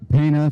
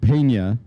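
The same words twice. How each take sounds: First: The name is said with a plain English 'n'. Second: The name is said with a Spanish 'ny' sound. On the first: The speaker calls it wrong. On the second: The speaker calls it right.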